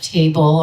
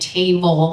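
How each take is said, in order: First: It is pronounced with an American accent. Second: It is pronounced with a Spanish accent. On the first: "instead of table" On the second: "saying table"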